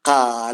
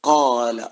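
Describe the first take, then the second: First: It starts with a light, plain k sound. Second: It starts with a heavy, deep back q sound. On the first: The speaker calls it wrong. "ചിലരത് ഹെവി ടോണിലേക്ക് വരാതിരിക്കുമ്പോ തെറ്റ് വരുത്താറുണ്ട്" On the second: The speaker calls it right. "Heavy tone"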